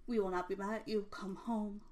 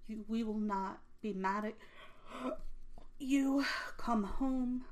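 First: Fix it and run the line clean; smooth corrected reread. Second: Stumble, then push "you" out; halting first read. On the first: Rereading the dad's note correctly, smooth and quick. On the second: Reading the dad's note to Adam, halting stress. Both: Retold or imitated. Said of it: "And excuse me".

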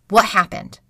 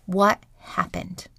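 First: Said in the usual way. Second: Quiet, slow inner question; softly asking yourself, slowly, what happened. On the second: Pretend. To herself after opening her eyes, quiet and slow. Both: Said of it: "ask yourself".

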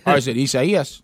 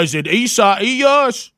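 First: Isaias said briskly as ee-say-EE-es; plain Spanish pronunciation. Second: Slow, higher Isaias, exaggerated as EE-sigh-EE-us; overdone, slow try at Isaias; mock wrong pronunciation. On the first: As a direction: Isaias in the usual, unexaggerated voice. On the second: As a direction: drag out Isaias with drawn-out vowels. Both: Shown as a demonstration. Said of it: "all right, let's try it".

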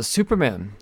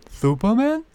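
First: Said in the usual way. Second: Much higher, lisped Superman? as "Thuperman"; a silly high lisp on Superman?; mock lisping squeak. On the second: Mocking repeat of the title.

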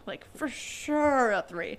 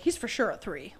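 First: Slow, leaning on "sure"; slow emphatic repeat. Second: Said in the usual way. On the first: Retold or imitated. Repeating the verdict on the dad's cousin, slow and emphatic. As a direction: drag out "for sure" to hammer it home.

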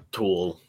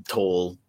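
First: "tool" drawn out with an oo vowel; Pittsburgh pronunciation. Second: "toll" with a long o, rhyming with roll; standard pronunciation. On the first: Boyfriend imitating his girlfriend's accent, Pittsburgh "tool". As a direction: say "tool" slowly, as Pittsburgh says toll. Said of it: "accent that they got down there". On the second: Boyfriend showing Pittsburgh vowel trouble, "toll" said standard. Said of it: "They, they can't say". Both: Shown as a demonstration.

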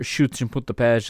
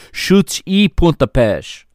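First: "chutes e pontapés" with the e blurred into a quick English "uh", like "and"; English-sounding e. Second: "Chutes e pontapés" slow and higher, the "e" said as a clear Portuguese "i"; careful Portuguese. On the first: Real, not acted. Commentator slips into an anglicized reading. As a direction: say "e" lazily as an English schwa. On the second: Shown as a demonstration. Commentator correcting himself, careful Portuguese. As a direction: spell out "chutes e pontapés" slowly, the "e" as a clean "i". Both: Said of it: "I keep saying it like that, like it's English".

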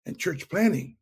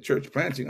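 First: Church planting said as a flat statement, falling; just report the term "church planting"; stated plainly. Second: "Church planting?" asked with a rising, puzzled lift; puzzled question. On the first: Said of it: "he said, "You know, our". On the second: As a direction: sound unsure what "Church planting" means. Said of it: "I said". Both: Retold or imitated.

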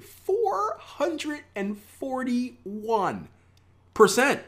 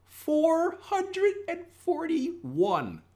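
First: Very slow, high, stretched-out wonder; amazed voice. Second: Slow, high, drawn-out amazed voice; awed reveal. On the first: Shown as a demonstration. Trader urging viewers to say it awed, drawn out high. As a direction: say it like you can't believe it. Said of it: "you gotta do it in that voice too". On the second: Acted. Trader revealing huge return to viewers, slow awed high voice. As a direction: stretch it out in disbelief.

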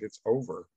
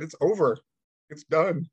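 First: Said in the usual way. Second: Higher and louder, insisting; louder insistent repeat. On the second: Retold or imitated. Repeating to his stunned son that it's over, louder. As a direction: say it again with more force so they finally get it. Repeating the news when asked again.

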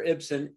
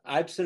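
First: "Ibsen" said as IB-sen; short "i" as in "it" to open "Ibsen"; short-i pronunciation. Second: "Ibsen" said as EYEB-sen; long-i pronunciation. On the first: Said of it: "Ibsen is the last name". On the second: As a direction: give "Ibsen" an "eye" opening. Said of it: "I always question that". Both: Shown as a demonstration.

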